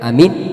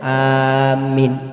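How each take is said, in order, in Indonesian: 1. Vokal pertama dan kedua sama-sama pendek. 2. Vokal pertama panjang, yang kedua pendek. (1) "a-nya pendek, minnya pendek juga" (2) "a-nya panjang, minnya pendek"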